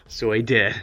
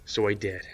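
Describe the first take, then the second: First: Louder playful repeat breaking into laughter; weird-sounding, laughing. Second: Said in the usual way. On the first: Pretend. Storyteller pokes fun at his own confession, laughing odd delivery. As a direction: say it with odd emphasis, then laugh. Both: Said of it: "That sounded weird".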